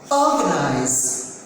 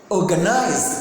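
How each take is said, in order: First: The stress is on the first syllable. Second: The stress is not on the first syllable. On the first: The speaker calls it right. "the stress is there on O" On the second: The speaker calls it wrong. "That's not correct"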